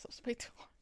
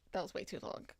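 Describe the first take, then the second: First: Whispered aside. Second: Said in the usual way. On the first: Real, not acted. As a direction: breathe it as a secret.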